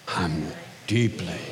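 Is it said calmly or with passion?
with passion. It is said with strong passion.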